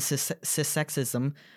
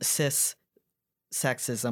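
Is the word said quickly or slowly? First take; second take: quickly; slowly. First: The word is said quickly, run together. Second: The word is said slowly and carefully. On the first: "I just put everything together" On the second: "I'm going to say it slower"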